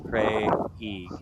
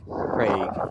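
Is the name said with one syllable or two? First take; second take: two; one. First: The vowel is split into two syllables. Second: The vowel is one gliding syllable. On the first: "separate the A and the I" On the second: "just say A Y like Craig"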